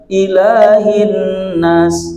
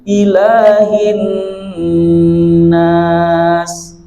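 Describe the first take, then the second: First: The nasal n sound is cut short. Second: The nasal n sound is held long. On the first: The speaker calls it wrong. "tidak dibaca langsung" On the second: The speaker calls it right. "tahan dulu"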